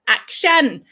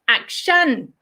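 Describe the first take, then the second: First: It is said the way Thai speakers say it. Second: It is said the way Thai speakers say it.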